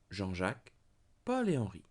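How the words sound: Jean and Jacques join; Paul and Henri stay apart. Three different men are named. "Three men"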